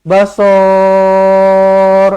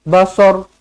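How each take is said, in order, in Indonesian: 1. Vokalnya dibaca panjang. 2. Vokalnya dibaca pendek. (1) "tak nak, salah" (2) "pendek sahaja"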